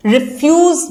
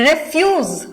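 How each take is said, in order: First: refuse with the stress on FUSE, the verb; re-FUSE, hitting the end of "refuse"; second-syllable stress. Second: refuse with the stress on REF, the noun; REF-use, punching the start of "refuse"; first-syllable stress. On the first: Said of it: "second syllable पे stress आया". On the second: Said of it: "first syllable पे stress आएगा". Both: Shown as a demonstration.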